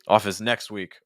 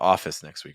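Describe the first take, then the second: First: The stress falls on the words next week. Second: The stress falls on the word office. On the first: The speaker calls it wrong. "you're putting the stress on next week" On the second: The speaker calls it right. "So I would stress office"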